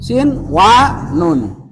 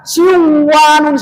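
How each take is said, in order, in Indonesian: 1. Bunyi n dibaca jelas sebelum w. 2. Bunyi n menyatu dengan w setelahnya. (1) "Idharkan di sini" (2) "Jangan dibaca sin wa nun, salah"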